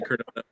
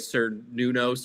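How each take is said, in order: First: The name begins with a hard K sound. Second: The name begins with an S sound. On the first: The speaker calls it right. "not with the hard C" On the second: The speaker calls it wrong. "it was with the S"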